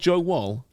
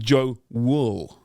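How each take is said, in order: First: The surname's vowel sounds like in 'wall'. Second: The surname's vowel sounds like in 'wool'. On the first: The speaker calls it wrong. "Not Joe Wall" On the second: The speaker calls it right. "starting in goal with Joe Wool"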